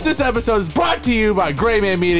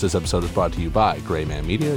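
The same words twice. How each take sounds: First: It is spoken at a louder volume. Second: It is spoken at a quieter volume. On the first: The speaker calls it right. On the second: The speaker calls it wrong.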